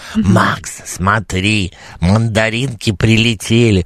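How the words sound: It is said in a put-on voice imitating someone.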